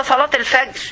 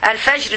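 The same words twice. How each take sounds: First: Said in the usual way. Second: الفجر with ج softened to "j" instead of "g"; soft jeem. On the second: Real, not acted. Teacher fixing her colloquial slip, soft jeem in الفجر. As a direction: pronounce the ج in الفجر as classical "j". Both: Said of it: "نار الواجب إن عطش الجيم".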